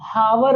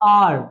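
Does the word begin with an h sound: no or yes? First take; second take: yes; no. First: The word begins with an audible h sound. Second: The word begins directly with a vowel sound. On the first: The speaker calls it wrong. "Hour नहीं" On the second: The speaker calls it right. "Silent एच है यहाँ"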